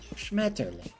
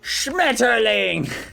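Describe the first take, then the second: First: The word is said softly and relaxed. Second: The word is said with harsh, forceful emphasis. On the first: "Sounds a lot more chill" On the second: "he purposefully like puts an emphasis on it"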